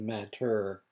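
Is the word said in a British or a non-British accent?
non-British. It is said without a British accent, with final r. "instead of matter"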